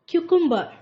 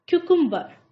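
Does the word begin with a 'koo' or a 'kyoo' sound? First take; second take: kyoo; kyoo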